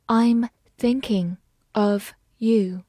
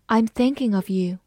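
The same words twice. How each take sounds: First: Slow, careful read; slow teacher demo. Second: Said in the usual way. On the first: Shown as a demonstration. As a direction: read it slowly word by word. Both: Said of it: "好，慢慢来读".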